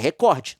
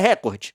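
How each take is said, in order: First: The stress is on the second syllable. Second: The stress is on the first syllable. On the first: The speaker calls it right. "a sílaba tônica é o cor e não o re. É recorde" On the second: The speaker calls it wrong. "não é recorde"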